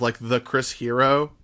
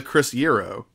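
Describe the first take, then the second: First: Said in the usual way. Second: Hero said as Yero, with a Y sound like Euro; Yero pronunciation. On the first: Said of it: "Or, or even the Chris Hero". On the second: Shown as a demonstration. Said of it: "I spelled it with a Y, like Euro".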